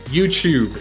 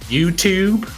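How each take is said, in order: First: It is said in a non-American accent. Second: It is said in an American accent. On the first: The speaker calls it right. "is how you say it" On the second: The speaker calls it wrong. "like an American?"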